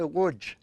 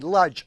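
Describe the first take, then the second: First: The name is said with Polish sounds. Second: The name is said as English spelling suggests. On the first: "in Polish, they pronounce it" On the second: "it's actually Lodz, L O D Z"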